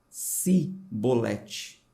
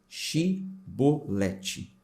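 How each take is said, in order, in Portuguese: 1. A palavra começa com o som de 's'. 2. A palavra começa com o som de 'sh'. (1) "com S" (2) "A pronúncia do jeito que eu estou falando aqui com C H"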